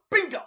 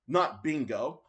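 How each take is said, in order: First: "Bingo" shot out high; sharp Japanese-accent "Bingo"; imitating Terry. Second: Said in the usual way. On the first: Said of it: "he's like".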